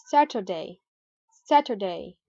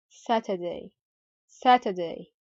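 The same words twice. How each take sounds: First: "Saturday" with the t as a soft d; American flap T. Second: "Saturday" with a true t, not a d; British clear T. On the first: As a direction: say Saturday American-style, like "Sadurday". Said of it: "turn the t sound into a soft d sound". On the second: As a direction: say Saturday British-style, "Sa-tuh-day". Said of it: "pronounce the R regularly without any change". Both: Shown as a demonstration.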